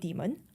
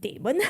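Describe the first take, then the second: First: The first vowel sounds like 'dee'. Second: The first vowel sounds like 'day'. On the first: This is how colleagues say it; it sounds like devil. "my American colleague, they will call it Demon" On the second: This is the speaker's own preferred pronunciation. "my personal preference, I like to call it Damon"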